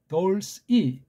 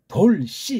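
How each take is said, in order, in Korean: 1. 가볍고 짧은 s 소리가 슬쩍 끼어듭니다. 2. 힘을 준 겹쳐진 ss 소리가 모음에 붙습니다. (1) "스를 슬쩍 이렇게 넣어주는 것이 좋죠" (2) "돌씨 이렇게 말하면 ... 소리가 이상해요"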